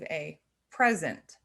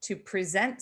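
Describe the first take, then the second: First: PRESent, said PREZ-ent as a noun; stress on first syllable. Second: PreSENT, said pree-ZENT as a verb; stress on second syllable. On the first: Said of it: "a noun". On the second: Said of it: "is a verb". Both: Shown as a demonstration.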